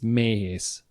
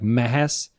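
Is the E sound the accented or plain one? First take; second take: accented; plain. First: The E is said as the accented Hungarian sound. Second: The E is said as a plain, unaccented E. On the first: The name is written with accent marks. The speaker calls it right. "because I have the dash or the commas on it, it's Mehes" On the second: The name is written without accent marks. The speaker calls it wrong. "If if we didn't have it, it sounds like Mehes"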